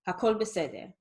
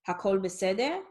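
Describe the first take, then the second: First: It is said with a statement intonation. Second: It is said with a questioning intonation. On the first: It states that everything is okay. "everything is okay, okay, as a statement" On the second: It asks whether everything is okay. "is everything okay? That's a question"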